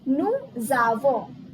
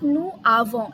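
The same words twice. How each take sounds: First: The s links to the vowel as z. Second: The s stays silent, with no link. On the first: The speaker calls it right. "S and A when pronounced together it becomes Ja" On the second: The speaker calls it wrong.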